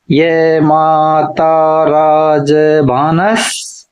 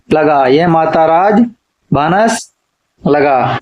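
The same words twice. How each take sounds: First: Drawn-out chant of the formula, each syllable stretched; slow mnemonic recital. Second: Said in the usual way. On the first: Shown as a demonstration. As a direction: recite the memory formula very slowly for students to repeat. (सूत्र को बहुत धीरे, खींचकर पढ़ना) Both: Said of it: "गणों को याद रखने का सूत्र है".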